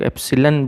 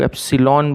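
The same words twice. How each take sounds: First: एप्सिलॉन ending in a weak "lun"; reduced-vowel pronunciation. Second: एप्सिलॉन ending in a full "lawn"; full-vowel pronunciation. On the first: (एप्सिलॉन के अंत में छोटा "लन") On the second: (एप्सिलॉन के अंत में खुला "लॉन") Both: Shown as a demonstration. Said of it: "कुछ लोग एप्सिलॉन बोलते हैं".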